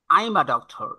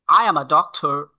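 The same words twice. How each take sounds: First: "I'm" run into one syllable; contracted form. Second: "I am" as two clear words; full form. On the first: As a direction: shorten to "I'm". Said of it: "that means I'm". (সংক্ষিপ্ত "I'm") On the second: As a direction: keep "I am" uncontracted. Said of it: "how to express these sentences". ("I am" পূর্ণ রূপে) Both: Shown as a demonstration.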